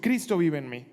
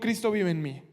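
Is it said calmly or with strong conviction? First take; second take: strong conviction; calmly. First: It is said with strong conviction. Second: It is said calmly, without special force.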